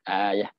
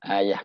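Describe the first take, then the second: First: The word ends with an h sound. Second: The same.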